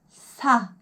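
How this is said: The consonant and vowel are tightly joined. "아예 정확하게 딱 붙여서 소리를 내는 거예요"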